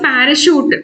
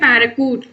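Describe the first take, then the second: First: The last syllable begins with an sh sound. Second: The last syllable begins with a k sound. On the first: The speaker calls it right. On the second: The speaker calls it wrong.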